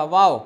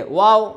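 First: واو with a v-like start, lips unrounded; wrong unrounded waw. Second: واو like English "wow", lips rounded; rounded waw. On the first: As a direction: say واو as "vao". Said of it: "اگر آپ نے یوں پڑھا". (ہونٹ گول کیے بغیر واو) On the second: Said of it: "ہونٹ جو ہے وہ گول". (گول ہونٹوں سے واو) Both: Shown as a demonstration.

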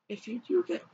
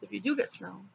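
First: Cracked, failing voice; voice cracking. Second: Said in the usual way. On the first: Real, not acted. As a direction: voice breaking and catching. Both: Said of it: "I just lost my voice".

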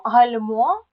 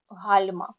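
First: ГальМО, final syllable stressed, slow and loud; гальмо with strong final stress; stress demo. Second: ГАЛЬма, first syllable stressed, slow and loud; гальма with strong initial stress; stress demo. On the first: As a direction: slowly punch the end of гальмо. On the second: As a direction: slowly punch the start of гальма. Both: Shown as a demonstration. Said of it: "Запам'ятайте слова".

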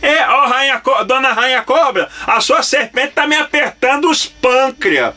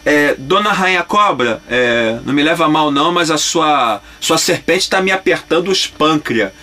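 First: Much higher, slow goofy cartoon voice; silly cartoon voice. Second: Cartoon line. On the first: Voice actor repeating his dubbing line for the director, goofy and high. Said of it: "o que que você falou aí?". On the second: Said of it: "Eu falei".

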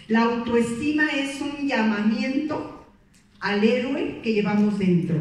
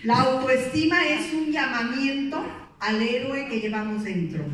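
First: Slower, louder, each word spelled out for notes; slow emphatic read for note-taking; slow dictation. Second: Said in the usual way. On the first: Shown as a demonstration. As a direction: dictate it so they can write. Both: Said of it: "esta anótenla".

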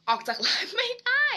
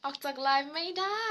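First: Much higher and louder, rising at the end; playful squeal. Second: Only slightly raised, with a gentle rise; milder playful read. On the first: Reading a fan's comment to viewers, with a playful high squeal. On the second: Repeating the fan's comment to viewers, mildly playful. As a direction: say "ออกจากไลฟ์ไม่ได้" lightly, lifting the end a little. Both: Pretend.

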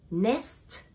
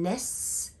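First: "Next" said as nest, ending in a crisp T; NEST with final T. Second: "next" said as ness, the S drawn out; NEST without T. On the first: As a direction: sound the T at the end of "Next". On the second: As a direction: drop the T, end "next" on a long S. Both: Shown as a demonstration. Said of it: "I drop the letter T".

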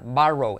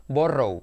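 First: "Borrow" with an open A, "BA-rou"; spoken pronunciation. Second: "borrow" with a round O, "BO-rrou"; slow spelling reading of "borrow"; as written. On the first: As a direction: say "Borrow" like "barrow". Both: Shown as a demonstration. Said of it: "escrito borrow".

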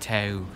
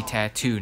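First: "tattoo" with no middle T, like ta-oo; mock "tattoo" by swallowing the second T; tattoo with dropped T. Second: "tattoo" with a crisp T in the middle; tattoo with clear T. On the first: Vlogger mocking Australian viewers, "tattoo" with the middle T dropped. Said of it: "I'm calling out all my Australians". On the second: Vlogger correcting Australian viewers, clearly pronounced T's in "tattoo". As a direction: say "tattoo" as tat-TOO, both T's sounded. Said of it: "not tattoo". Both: Shown as a demonstration.

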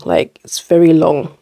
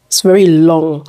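First: Said in the usual way. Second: "very" said louder and lengthened in "It's very long"; stress on very. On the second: Real, not acted. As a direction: lean hard on "very" before "long". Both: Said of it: "Can you guys see?".

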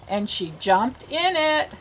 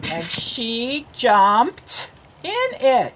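First: Said in the usual way. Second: Very slow, word by word; slow model reading. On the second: Shown as a demonstration. Teacher reads the line for a child to copy, very slowly. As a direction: draw out each word for a beginning reader. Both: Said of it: "You read it".

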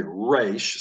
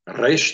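First: "Reish" with a front-of-mouth English R, lips rounded. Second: "Reish" with a trilled Spanish-style R; rolled R. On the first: Teacher demonstrating the English R to students, lips rounded. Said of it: "English speakers would say Reish". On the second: Teacher demonstrating the Israeli trilled R to students. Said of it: "they would roll the R". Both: Shown as a demonstration.

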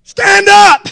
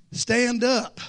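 First: High, loud bark of Stand up!; shouted command. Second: Said in the usual way. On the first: Retold or imitated. Preacher retelling the guide shouting at the fisherman. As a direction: yell Stand up! as the punchline. Punchline of the fish story.

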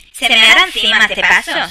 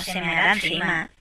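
First: Louder worried outburst; alarmed loud remark; worried exclaim. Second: Lower, softer resigned repeat; quiet resigned aside; muttered repeat. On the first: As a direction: blurt the worry out loud. Fears the child will wet himself. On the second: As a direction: say it again under your breath. Repeats the worry to herself. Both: Real, not acted.

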